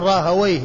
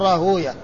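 First: It is said Rahawayh, ending in a -wayh sound. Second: It is said Rahuyah, with an u before the ya. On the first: This is how language scholars say the name. "أهل اللغة فيقولون راهوي، يعني يكون تكون الواو مفتوحة والياء ساكنة" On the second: This is how hadith scholars say the name. "المحدثين ينطقون به هكذا فيقول راهوية، يعني تكون الواو ساكنة والهاء قبلها مضمومة والياء التي بعد الواو مفتوحة"

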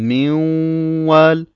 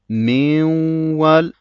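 No difference in how they are said.

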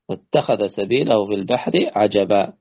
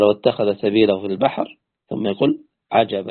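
First: The phrase runs on without a pause before the end. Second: There is a stop before the last word. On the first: The last word is part of the same statement. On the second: The last word is a separate exclamation by another speaker.

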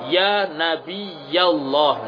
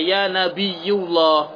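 First: The vowel after nabiy is a. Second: The vowel after nabiy is u. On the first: The speaker calls it right. "nabiyya dengan fathah" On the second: The speaker calls it wrong. "Tidak dibaca ya nabiyullah"

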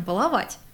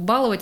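First: The stress is on the last syllable. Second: The stress is on the first syllable. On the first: The speaker calls it right. "А правильно" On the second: The speaker calls it wrong. "это неправильно"

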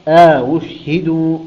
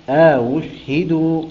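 First: A long alif sound separates the two hamzas. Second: A long alif sound separates the two hamzas.

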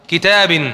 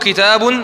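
First: The word ends with the vowel i. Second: The word ends with the vowel u. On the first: "متى أنطق الكسرة" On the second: "متى أنطق الضمة"

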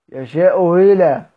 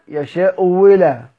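No difference in how they are said.

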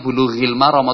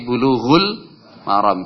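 First: The first word ends in an i vowel. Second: The first word ends in a u vowel. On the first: The speaker calls it wrong. "kita tidak menyebutnya bulughil maram" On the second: The speaker calls it right. "tapi bulughul maram"

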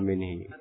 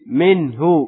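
First: The word ends in an 'i' vowel. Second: The word ends in an 'u' vowel. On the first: The speaker calls it wrong. "enggak enak kalau minhi" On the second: The speaker calls it right. "Adanya minhu"

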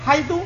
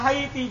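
First: The word ends in an u vowel. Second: The word ends in an i vowel. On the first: "Dibaca dhamma haitu" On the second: "Wa haiti bil kasri"

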